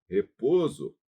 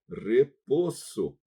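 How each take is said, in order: First: The s between vowels sounds Portuguese-style. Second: The s between vowels sounds Spanish-style. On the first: The speaker calls it wrong. "ia dizer repouso" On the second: The speaker calls it right. "Não é repouso"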